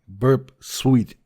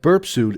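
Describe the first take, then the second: First: The second word sounds like 'sweet'. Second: The second word sounds like 'suit'. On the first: The speaker calls it right. "I hope I will uh, continue saying it correctly" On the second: The speaker calls it wrong. "I was corrected on my spelling"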